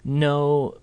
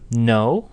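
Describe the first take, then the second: First: The pitch stays level. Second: The pitch rises. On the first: More explanation is about to follow. "when said in this kind of level tone" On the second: It is a question showing surprise or curiosity. "No in a rising tone kind of indicates indicates a question"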